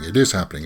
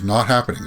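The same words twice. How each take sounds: First: IS lifted to counter the denial; stress on IS. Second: NOT leaned on in a back-and-forth rumour; stress on NOT. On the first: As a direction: lean on "is", retelling the contradiction. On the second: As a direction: lean on "not", retelling a flat denial. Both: Retold or imitated. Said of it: "people said".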